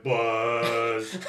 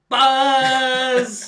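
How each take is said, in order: First: Deeper buzz cry, laughing; lower Electabuzz impression. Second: Shrill squeaky buzz cry; high Electabuzz impression. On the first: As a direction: drop it an octave. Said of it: "let's take that down like an octave". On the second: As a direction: yell it way up high like a Pokemon. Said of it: "give me your impression of Electabuzz".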